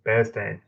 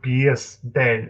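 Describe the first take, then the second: First: "Bear's Den" said with Bear's as one syllable; "Bear's Den" with a single open vowel in Bear's; correct pronunciation. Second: "Bear's Den" said wrongly as "Bee-ers Den"; "Bear's Den" with a mistaken ee-sound in Bear's; wrong pronunciation. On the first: Shown as a demonstration. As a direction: model "Bear's Den" simply, like the animal bear. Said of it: "it's called Bear's Den". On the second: Retold or imitated. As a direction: imitate the mistaken "Bear's Den", first word split like "Bee-us". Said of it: "It's not called Bear's Den".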